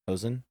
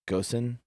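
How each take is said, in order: First: The word starts with an h sound, no g. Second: The word starts with a hard g sound.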